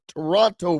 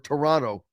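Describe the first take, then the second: First: The second t sound is clearly pronounced. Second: The second t sound is dropped.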